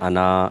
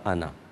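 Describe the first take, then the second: First: The final vowel is stretched long. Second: The final vowel is cut short. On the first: "थोड़ा सा बड़ा" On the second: "ना पे ही बात ख़त्म हो जाती है"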